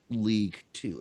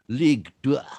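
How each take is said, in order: First: The number is said as English 'two'. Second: The number is said as French 'deux'. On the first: The speaker calls it wrong. "it's not League Two" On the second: The speaker calls it right. "it's League Deux"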